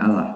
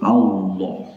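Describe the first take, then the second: First: The L is light and thin. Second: The L is heavy and thick. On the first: The speaker calls it wrong. "Membacanya bukan Allah" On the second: The speaker calls it right. "tapi Allah. Ya, lafzul jalalah dengan lafaz lamnya lam yang tebal"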